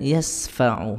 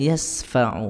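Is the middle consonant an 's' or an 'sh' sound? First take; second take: s; s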